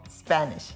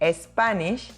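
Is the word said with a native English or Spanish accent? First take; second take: native English; Spanish. First: It is said with a native English accent. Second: It is said with a Spanish accent. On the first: The speaker calls it right. "instead of Spanish" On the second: The speaker calls it wrong. "the Spanish speakers usually say Spanish"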